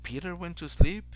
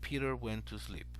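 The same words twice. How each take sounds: First: The voice rises at the end. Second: The voice falls at the end. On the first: The speaker wonders whether it happened. "then you kind of wondering if Peter went to sleep" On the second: It is a plain statement of fact. "So you end in the the statement"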